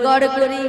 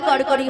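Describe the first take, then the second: First: The first word starts with a g sound. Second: The first word starts with a k sound. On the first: The speaker calls it right. "বলো গড় করি" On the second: The speaker calls it wrong. "ওটা কর করি কর করি হবে না"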